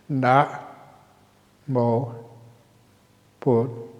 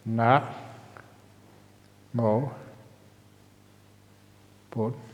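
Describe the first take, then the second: First: Short pauses separate the syllables. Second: Longer pauses separate the syllables.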